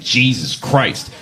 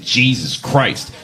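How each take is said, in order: First: It is said in an annoyed, exasperated tone. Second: It is said in an annoyed, exasperated tone.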